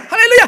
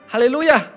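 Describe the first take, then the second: First: The word is said at a faster pace. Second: The word is said at a slower pace.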